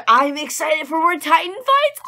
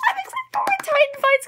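First: Bright, eager announcement; hyped fan saying it with energy; louder, higher excited cheer. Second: Much higher, giddy squeal; high, giddy fan squeal; squealing excitement. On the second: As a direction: say it again as a fangirl shriek. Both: Real, not acted. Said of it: "I'm so excited".

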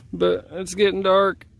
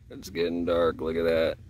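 First: Said in the usual way. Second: Deep spooky voice. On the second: Pretend. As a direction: drop the voice way down, spooky.

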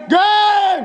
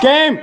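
First: High excited shout. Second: Said in the usual way. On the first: Real, not acted. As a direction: yell it out in relief. Match just ended.

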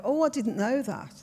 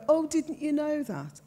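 First: Natural Brummie lilt; own Brummie accent. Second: High-pitched, exaggerated Brummie echo; mocking Brummie mimicry. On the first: Shown as a demonstration. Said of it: "That's how I'd say it". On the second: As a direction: mimic the Brummie accent back, pitched right up. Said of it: "mimicked it back to me".

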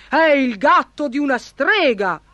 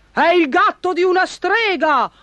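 First: Raised-pitch cry of discovery; sly baron calling out; crafty cry. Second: Very high-pitched alarmed yell; baron's high, urgent shout. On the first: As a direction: announce it with cunning triumph. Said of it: "gridò furbissimo il barone". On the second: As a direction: cry it out at the top of the voice. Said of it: "urlò il barone". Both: A narrator's reading.

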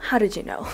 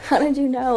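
First: Said in the usual way. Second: Laughing through the question. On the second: Real, not acted. Asking the giver again, laughing delightedly. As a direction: let the laugh carry the words.

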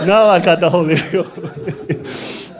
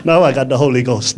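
First: Slow, laughing through "now I got the Holy Ghost"; joyful laughing. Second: Said in the usual way. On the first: Real, not acted. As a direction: let the joy spill out, stretching the words.

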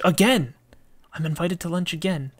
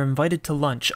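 First: Higher, exclaimed "Again!", then quicker; surprised reaction. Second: Said in the usual way. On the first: Real, not acted. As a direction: blurt it out in mild surprise. Reacts to a repeat invitation.

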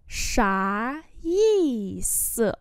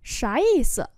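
First: Very slow, syllable by syllable; slow model reading. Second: Said in the usual way. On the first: Shown as a demonstration. Teacher modelling Chinese phrases for learners, slow and drawn-out. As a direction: stretch each syllable out for learners.

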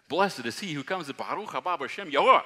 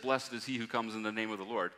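First: Loud, high jubilant crowd cry; crowd shouting. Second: Said in the usual way. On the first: Retold or imitated. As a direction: shout it out like the palm-waving crowd. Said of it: "They were shouting". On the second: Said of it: "When they said".

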